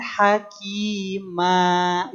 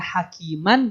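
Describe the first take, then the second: First: The word ends with a long a, no n. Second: The word ends with a short a and n. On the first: The reading stops at this word. "dipanjangkan dua harokat" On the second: The reading goes on without a stop. "awalnya hakiman"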